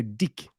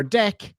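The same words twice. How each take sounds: First: "dick" as the Kiwi way of saying deck; mock Kiwi pronunciation. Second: Said in the usual way. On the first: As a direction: say deck with a short i, so it comes out "dick". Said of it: "yeah, you guessed it". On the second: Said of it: "when they go out to play on their deck".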